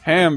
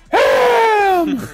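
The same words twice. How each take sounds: First: The name is said at a normal volume. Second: The name is screamed loudly. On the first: The character is listed first. "first or second, on top or bottom" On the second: The character is listed second. "if Burger Dog was second, he would fucking scream it"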